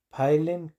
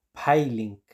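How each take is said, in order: First: "Peiling" con vocal final abierta, como "pailen"; pronunciación escrita. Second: "peiling" como "pailink", con i cerrada; pronunciación recomendada. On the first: ("Peiling" con e final) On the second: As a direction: di "peiling" despacio, bajando al final. ("peiling" lento, i cerrada) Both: Shown as a demonstration. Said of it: "se dice peiling".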